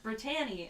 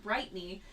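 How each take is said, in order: First: "Brittany" with a full "tan" in the middle; said as Brit-TAN-ee. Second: "Brightney" with first syllable like "bright". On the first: Actress explaining the name's spelling, "Brittany" said brih-TAN-ee. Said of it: "A N Y, so it's not". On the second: Actress explaining the name's spelling, "Brightney" said BRIGHT-nee. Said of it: "it's two T's, so it's not". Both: Retold or imitated.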